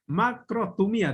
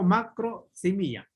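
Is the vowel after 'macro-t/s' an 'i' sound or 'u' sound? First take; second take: u sound; i sound. First: The middle syllable has a 'u' vowel sound. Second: The middle syllable has an 'i' vowel sound. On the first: Others pronounce it this way. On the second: This is how the speaker learned it. "yo leo macrosimía, ¿no? Como si fuera con I"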